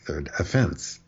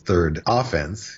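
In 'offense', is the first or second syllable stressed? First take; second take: second; first. First: The stress is on the second syllable of offense. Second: The stress is on the first syllable of offense. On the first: The speaker calls it right. "if you commit an offense, it's the second syllable" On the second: The speaker calls it wrong. "you don't say that he was given a ticket and that was his third offense"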